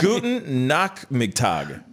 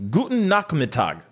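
First: "Guten Nachmittag" said slowly, with a German "ch"; careful German. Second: "Guten Nachmittag" again, checking the German "ch"; German retry. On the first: Host greets German viewer, slow careful German. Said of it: "that's good afternoon". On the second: Host retries German greeting for viewer, careful accent. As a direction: try "Guten Nachmittag" one more time. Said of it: "I said it right the first time". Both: Shown as a demonstration.

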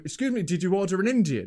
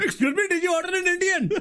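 First: Lightly attempted Indian accent; hesitant try at an Indian accent. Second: High-pitched hammed-up Indian accent. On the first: Driver asking about an order, lightly imitated Indian accent. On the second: Helping out the storyteller as the driver, exaggerated Indian accent. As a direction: go full caricature Indian accent. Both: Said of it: "one of these accents, like, head wobble".

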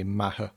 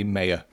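First: Maher said the Irish way, MA-her, with the h sounded; Irish pronunciation. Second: Mayer said the British way, as two syllables, MAY-uh; British pronunciation. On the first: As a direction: say "Maher" with a short a and a breathed h. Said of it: "if I was back in Ireland". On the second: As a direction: say "Mayer" to rhyme with player. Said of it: "in Britain, I say, I say Mayer". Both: Shown as a demonstration.

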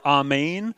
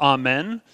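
First: "amen" said as ah-MAYN; Hebrew pronunciation. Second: "amen" said as ah-MEN; familiar pronunciation. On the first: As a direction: end "amen" on a long "ayn". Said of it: "is the Hebrew word". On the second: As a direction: end "amen" on a short "en". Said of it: "amen or amen". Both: Shown as a demonstration.

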